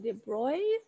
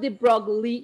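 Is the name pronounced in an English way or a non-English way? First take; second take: non-English; English. First: The name is pronounced in a non-English way. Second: The name is pronounced as if it were English. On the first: The speaker calls it right. "kind of like de Broglie. That's how you kind of pronounce it" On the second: The speaker calls it wrong. "this is not de Broglie equation. This is not English, it's pronounced differently"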